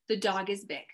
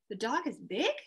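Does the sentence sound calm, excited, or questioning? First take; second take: calm; questioning. First: It is said as a calm, plain statement. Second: It is said as a doubtful, questioning query. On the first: It simply states a fact. "I put a period at the end. That's how the reader would read that" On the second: The speaker doubts that it is really big. "I'm questioning that"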